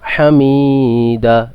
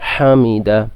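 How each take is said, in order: First: The vowels are stretched out long. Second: The vowels are kept short. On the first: The speaker calls it wrong. "অনেকে হামিদা এটা পড়তেছে, এখানে ভুল হবে" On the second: The speaker calls it right. "এখানে কোনো টান নেই"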